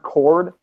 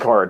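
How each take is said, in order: First: The word has an 'or' vowel, like 'chord'. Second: The word has an 'ar' vowel, like 'card'. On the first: The speaker calls it right. "even though it's chord" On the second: The speaker calls it wrong. "as in like playing card"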